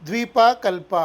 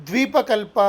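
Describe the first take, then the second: Both takes have the same delivery.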